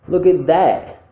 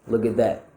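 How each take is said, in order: First: The word 'that' is stressed, with more open mouth. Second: The word 'that' is unstressed, with less open mouth. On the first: "Now let's make it stressed" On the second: "The first time I'm not, it's going to be unstressed"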